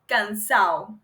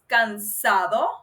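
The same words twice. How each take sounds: First: It is said in a Caribbean regional pronunciation. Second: It is said in a standard pronunciation. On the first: This is a regional Caribbean form. "but they say cansado" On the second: This is the standard form. "the right word is cansado"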